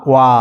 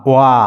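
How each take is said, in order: The two takes are said the same way.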